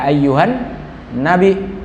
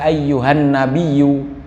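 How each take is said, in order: First: The word ends with a glottal stop sound. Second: The word ends with a doubled y sound. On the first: "di hamzah boleh" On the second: "Ditasydid boleh"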